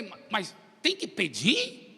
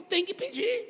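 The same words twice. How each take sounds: First: Slow, hesitant question. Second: High-pitched emphatic reply; firm answer. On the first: Preacher asking God if one must ask, questioning. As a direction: ask "tem que pedir" slowly as a doubting question. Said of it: "Eu falei". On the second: God answering the preacher's question, firm. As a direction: answer "Tem que pedir" as a firm confirmation, pitched high. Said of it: "Ele falou". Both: Retold or imitated.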